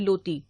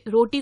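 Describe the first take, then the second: First: The word begins with an l sound. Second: The word begins with an r sound.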